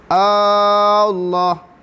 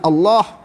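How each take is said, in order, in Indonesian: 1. Vokal pertama dipanjangkan. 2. Vokal pertama itu pendek. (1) "dia tak boleh Allah" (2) "dia kena Allah"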